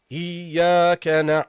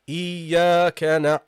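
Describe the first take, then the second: The two takes are said the same way.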